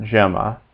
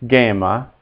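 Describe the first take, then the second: First: "gemma" as JEM-ma, with a J sound; JEM-ma, given as the version to avoid; wrong soft G. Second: "gamma" as GEM-ma, G as in give; careful Latin "gamma", hard G at the start; correct hard G. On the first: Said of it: "not gemma". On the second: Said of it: "G is always hard". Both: Shown as a demonstration.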